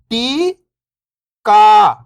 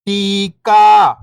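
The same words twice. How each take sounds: First: First syllable lifting, pause, second falling. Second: Whole word, level then falling at the end; syllables blended. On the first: Teacher breaking a word down for beginning readers, syllable by syllable. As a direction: sound out each syllable alone, long and separated. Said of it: "एक अक्षर का उच्चारण करके". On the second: Teacher showing beginners the joined word, syllables blended. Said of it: "इनको आपस में लाके पढ़ना है". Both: Shown as a demonstration.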